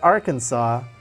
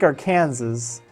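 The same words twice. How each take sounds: First: The final s is silent. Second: The final s is sounded. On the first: The speaker calls it right. "so I pronounce that Arkansas" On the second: The speaker calls it wrong. "but it looks like Arkansas"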